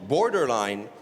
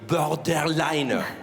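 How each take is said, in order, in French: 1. Il est prononcé avec un accent anglais. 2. Il est prononcé avec un accent français. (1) "tout le monde me dit oh là là, comment tu te la pètes?" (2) "parce que j'aimerais garder mes amis français"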